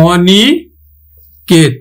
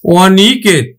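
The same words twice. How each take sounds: First: অনিকেত very slowly, "aw-niii", long pause, then "ket"; low, slow teacher's "aw-ni... ket" for অনিকেত; open O, syllable by syllable. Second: Said in the usual way. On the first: Shown as a demonstration. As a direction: draw out অনিকেত with an open "aw" start and a split before "ket". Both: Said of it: "আমার উচ্চারণ হবে কিন্তু".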